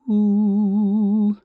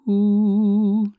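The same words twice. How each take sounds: The two takes are said the same way.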